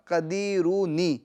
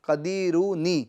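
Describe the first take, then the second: The two takes are said the same way.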